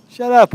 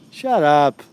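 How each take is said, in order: First: Higher, louder snap of Shut up; loud retort. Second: Said in the usual way. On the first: Real, not acted. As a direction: shout the second Shut up. Repeated retort, second louder and higher.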